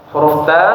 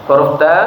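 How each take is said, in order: No difference in how they are said.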